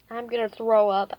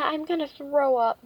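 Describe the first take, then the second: First: Louder, same pitch; said loudly. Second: Raised, louder and higher; said loudly. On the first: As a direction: say it loud so the neighbor hears. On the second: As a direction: announce it loudly to the neighbor. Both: A narrator's reading. Ivy warning Missus Trant she'll throw up, loudly. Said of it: "Ivy said loudly".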